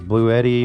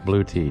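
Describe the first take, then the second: First: The name ends sounding like 'eddie'. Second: The name ends sounding like 'tea'. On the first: "different ways of saying it" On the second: "Blue Tea is what the company calls themselves"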